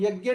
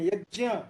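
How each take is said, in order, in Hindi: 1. इस संयुक्त अक्षर का उच्चारण g और y के मेल से होता है। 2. इस संयुक्त अक्षर का उच्चारण j और ny के मेल से होता है। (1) "वे लोग यज्ञ नहीं बोलते" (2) "वे लोग यज्ञ बोलते हैं"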